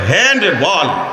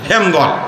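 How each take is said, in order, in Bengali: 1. শব্দ দুটি আলাদা আলাদাভাবে বলা হয়। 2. শব্দ দুটি একসাথে জুড়ে বলা হয়। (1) "এটারে বলে হ্যান্ড বল।" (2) "উচ্চারণ করতে করতে এটা হয়ে গেছে"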